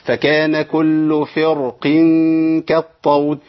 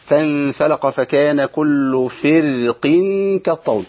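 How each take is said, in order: First: فرق recited slowly with a full, heavy ra. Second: فرق with a light, thin ra, drawn out slowly. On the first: Teacher demonstrates tafkhim of the ra in فرق. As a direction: make the ra of فرق thick. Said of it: "التفخيم". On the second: Teacher demonstrates tarqiq of the ra in فرق. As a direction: recite فرق keeping the ra thin. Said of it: "ده ترقيق". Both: Shown as a demonstration.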